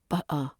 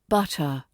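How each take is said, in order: First: The middle t is a glottal stop. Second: The middle t is a clear t sound. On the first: The speaker calls it wrong. "not butter" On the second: The speaker calls it right. "R P tends to avoid glottal stops. So it's butter"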